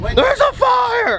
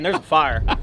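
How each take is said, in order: First: It is shouted loudly with urgency. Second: It is said quietly and casually. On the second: "Or just, hey man"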